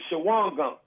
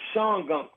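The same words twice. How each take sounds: First: The name is sounded out the way it's spelled. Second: The name is said in the local pronunciation. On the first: This is how outsiders say it. "we pronounce it Shawangunk because that's how it's spelled" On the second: This is how the locals say it. "them people upstate, they pronounce it different"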